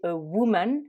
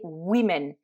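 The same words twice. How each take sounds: First: "woman" with a u sound in the first syllable; English woman. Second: "women" slowly, first syllable wi; English women. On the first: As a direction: say "woman" as wu-man. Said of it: "une prononciation un peu particulière". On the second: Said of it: "le O ... va se prononcer I". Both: Shown as a demonstration.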